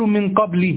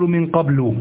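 First: The word ends in a short i vowel. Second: The word ends in a short u vowel. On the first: Something specific is meant to follow it. "لو أنني كأنني سأكمل الكلام سأقول من قبل" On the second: A specific thing is meant but not spoken. "فأبني هنا على الضم"

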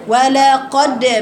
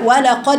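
First: The d is held long like a doubled consonant. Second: The d is closed and released quickly. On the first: The speaker calls it wrong. "كان بعض الناس تقرا كده" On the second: The speaker calls it right. "تقفلي المخرج وتفتحيه بسرعه"

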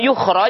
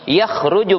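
First: The word begins with a 'u' vowel. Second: The word begins with an 'a' vowel. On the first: The person will be brought out. "Kalau dibaca dengan dhammah yukhraj" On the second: The person will come out by themselves. "Kalau dibacanya fathah"

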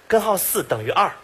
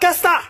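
First: Every syllable is pronounced clearly. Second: Most syllables are swallowed into two sounds. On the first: "他说的是" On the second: "吃字最严重的"

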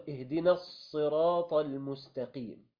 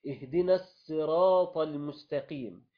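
Both takes have the same delivery.

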